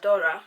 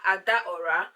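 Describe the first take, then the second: First: The name is said the local way. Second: The name is said the Nigerian way. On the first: This is how people here say it. "here they just call her Adora" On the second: This is how people back home say it. "back home we should call her Adaora"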